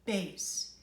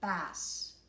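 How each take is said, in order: First: It is said like the low musical word. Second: It is said like the name of the fish. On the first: It means low. The speaker calls it right. "pronounce it the way the Italians do" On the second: It names a fish. The speaker calls it wrong. "which in American English would be bass. But that's a fish"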